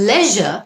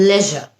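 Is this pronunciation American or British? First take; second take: British; British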